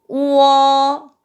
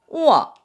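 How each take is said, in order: First: It is said with the first tone. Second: It is said with the fourth tone. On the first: "1성부터 시작할게요" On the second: "4성은"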